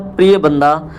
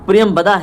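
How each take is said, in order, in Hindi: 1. इस नाम में 'priya' के बाद m की ध्वनि नहीं है। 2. इस नाम में 'priya' के बाद m की ध्वनि है। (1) "थोड़ा सा उच्चारण में त्रुटि हुआ है" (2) "प्रियम बदा है एक्चुअली"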